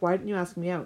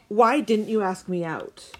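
First: It is said in a milder, less angry tone. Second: It is said in an angry tone.

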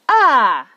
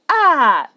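Both takes have the same delivery.

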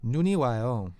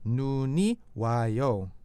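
First: It is said a little faster. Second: It is said at a normal, careful speed.

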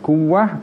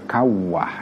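First: The first vowel is pronounced as u. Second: The first vowel is pronounced as a. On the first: "bisa dibaca kuwah" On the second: "bisa dibaca kawah ya"

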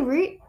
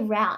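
First: The vowel sounds like the one in boot. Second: The vowel sounds like the one in out. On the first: This is the British and Australian way of saying it. "Do you say root?" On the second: This is the American way of saying it. "I always say route"

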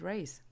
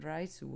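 First: It is said plainly, ending without a vowel. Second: It is said Japanese-style, with an added final vowel.

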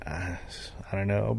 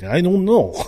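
First: It is said in his normal accent. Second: It is said in a put-on foreign accent.

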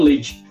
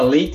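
First: It is said in a São Paulo accent. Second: It is said in a western Paraná accent.

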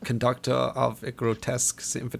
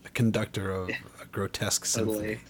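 First: The phrase is said in a put-on, accented voice. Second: The phrase is said in a plain, natural voice. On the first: "No, that's terrible. That was not even good. I got to work on my Herzog" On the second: "That's a great way to describe Bong Joon-ho"

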